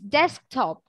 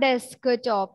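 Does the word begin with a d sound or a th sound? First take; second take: d sound; th sound. First: The word begins with a crisp d sound. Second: The word begins with a soft th sound. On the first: The speaker calls it right. "it's desktop" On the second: The speaker calls it wrong. "It's not desktop"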